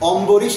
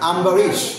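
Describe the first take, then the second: First: The first vowel is a rounded 'o' sound. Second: The first vowel is an open 'a' sound. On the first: The speaker calls it wrong. "অম্বরীশ না" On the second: The speaker calls it right. "এইভাবে উচ্চারণ করতে হবে"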